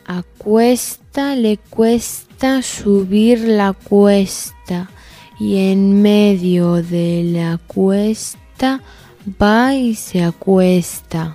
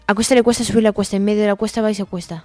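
First: It is said at a slow speed. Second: It is said at a fast speed.

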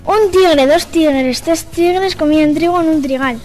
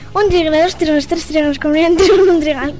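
First: It is said at a normal speed. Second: It is said at a faster speed.

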